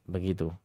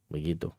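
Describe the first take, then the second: No difference in how they are said.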